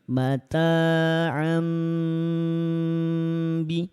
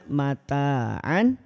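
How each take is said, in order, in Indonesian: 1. Bunyi sengau di akhir terdengar seperti M. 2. Bunyi sengau di akhir terdengar seperti N. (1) "tidak lagi dibaca N, tapi ditukar dengan bunyi M. Bacanya jadi"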